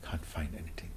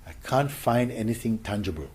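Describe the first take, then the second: First: Hushed whisper; soft whispered discovery. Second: Said in the usual way. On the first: Shown as a demonstration. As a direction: whisper it as a quiet finding.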